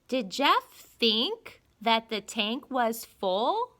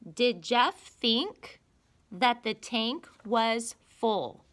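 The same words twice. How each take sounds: First: It is read with a marked questioning rise. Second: It is read plainly without a marked rise.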